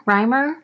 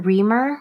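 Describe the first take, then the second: First: Reimer said as "RYE-mer", questioningly rising; pronounced RYE-mer. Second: Reimer said as "REE-mer"; pronounced REE-mer. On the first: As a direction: say Reimer with an eye sound first. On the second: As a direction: say Reimer with a long ee first. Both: Shown as a demonstration. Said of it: "how do you say your name".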